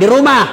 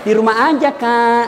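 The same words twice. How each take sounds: First: "Di rumah" snapped out louder and curt; firm reply. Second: Sweet lilting reply. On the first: Girl cutting a boy short on the phone, curt and firm. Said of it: "kalau kau tegas terima telepon". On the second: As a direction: let "aja" linger, sweet and inviting. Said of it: "jangan kau juga mendayu-dayu". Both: Shown as a demonstration.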